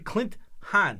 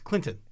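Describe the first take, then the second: First: The two names are said apart as separate words. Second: The two names run together fast as one word. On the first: "I'm not putting it together" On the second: "if you just say it fast, it's Clinton"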